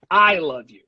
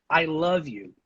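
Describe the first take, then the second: First: "I" hit hard, the rest falling away; stress on I. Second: "love" carries the weight, then falls; stress on LOVE. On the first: Teacher models the last sentence for students, stress on "I". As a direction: punch the first word "I". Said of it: "put an unusual amount of stress". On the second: Teacher models the first sentence for students, stress on "love". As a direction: lean on the word "love". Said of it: "put extra stress on love". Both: Shown as a demonstration.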